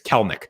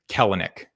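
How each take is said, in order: First: The middle vowel is silent and dropped. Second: The middle vowel is pronounced as a syllable. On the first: The speaker calls it right. "The middle E is silent" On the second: The speaker calls it wrong. "I said that wrong"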